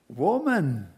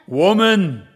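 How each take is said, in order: First: The word is said in a soft, gentle tone. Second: The word is said in a harsh, threatening tone. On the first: The listener is being comforted. "It can either bring comfort" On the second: The listener is being frightened. "or it can bring terror"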